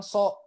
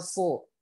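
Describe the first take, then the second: First: "so" with a light S like sin, higher; thin S. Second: "so" with a heavy, dark emphatic S; thick sod. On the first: Teacher contrasts the wrong letter, thin "so". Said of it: "bukan so". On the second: Teacher models the right letter, thick heavy "so". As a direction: raise the back of the tongue on "so". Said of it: "Ya, jadi bacanya so". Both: Shown as a demonstration.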